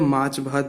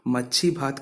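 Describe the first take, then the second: First: The first word is said as 'maach'. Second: The first word is said as 'machhi'. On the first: The speaker shows he knows the native form. "माछ भात भी बोलना आता है" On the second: The speaker deliberately uses a non-native form to feel superior. "लेकिन मैं फिर भी मच्छी बोलूंगा"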